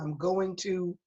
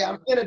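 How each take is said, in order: First: Each word of 'going to' is fully pronounced. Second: The phrase is reduced to 'gonna'. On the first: This is how the family taught him to speak. "I said" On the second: This is how the other kids spoke. "I didn't say I'm gonna do something"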